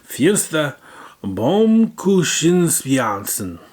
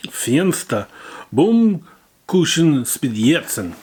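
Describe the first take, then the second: First: High, loud mock German; mock German accent. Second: Slow, loud mock German; mock German accent. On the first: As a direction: repeat it like a German announcer. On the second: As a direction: pronounce it like a German announcer. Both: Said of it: "what I can only describe as".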